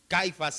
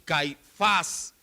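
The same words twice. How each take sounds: First: The stress is on the first syllable. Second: The stress is on the last syllable. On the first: The speaker calls it wrong. "ni es Caifás" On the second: The speaker calls it right. "Llevan acento ambos en la última sílaba"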